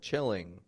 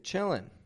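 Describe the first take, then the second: First: The word ends with a full ng sound. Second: The word ends with a plain n sound. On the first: It is the standard, careful form. "like I taught N G before" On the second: It is casual, informal speech. "I'm not pronouncing the N G on the end of chillin'"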